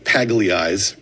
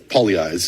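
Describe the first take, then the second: First: The name is read letter by letter as spelled. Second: The name is said with an Italian-style pronunciation. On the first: "if you look at the spelling, it's" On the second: "is how we pronounce it, because we have that Italian pronunciation"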